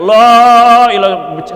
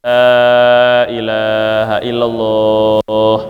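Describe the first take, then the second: First: It is shouted loudly. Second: It is said softly.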